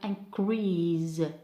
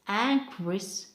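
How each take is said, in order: First: The stress is on the second syllable. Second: The stress is on the first syllable. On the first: It is used as a verb. "for the verb we have increase" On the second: It is used as a noun. "For noun we have increase, it's increase"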